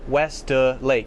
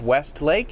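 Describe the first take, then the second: First: An extra uh vowel follows West before Lake. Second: West runs straight into Lake with no added vowel. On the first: "He adds uh to west" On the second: "instead of West Lake"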